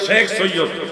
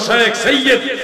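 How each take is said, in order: First: The first word has the everyday Bengali pronunciation. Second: The first word has the original Arabic pronunciation. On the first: This is the common spoken form. "আমরা সহজে বাঙালিরা বলি" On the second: This is the original form of the word. "মূল শব্দটা হলো"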